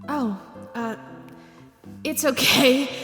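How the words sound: It is said in a soft, gentle voice.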